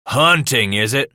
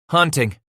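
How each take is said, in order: First: Loud, indignant echo of the word; thundering. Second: Put-on higher-pitched boy's voice; timid confession. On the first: Father to truant son, thundering. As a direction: throw the word back at him angrily. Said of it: "he thundered". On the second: Son confessing to angry father, timid. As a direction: own up in one small word. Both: A narrator's reading.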